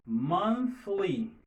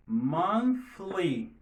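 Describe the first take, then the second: First: Monthly with air only on the th; Monthly, breath through the th; unvoiced th. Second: Monthly again, air only on the th; model word repeated. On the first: Teacher models Monthly for the class. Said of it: "Vous faites l'air sorti". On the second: Teacher repeats Monthly for the class. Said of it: "on dit monthly". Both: Shown as a demonstration.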